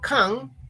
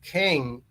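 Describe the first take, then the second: First: The vowel sounds like 'a'. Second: The vowel sounds like 'e'. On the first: It means a tin container. "cuando digo can, me refiero a una lata" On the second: It means to be able. "se pronuncia E"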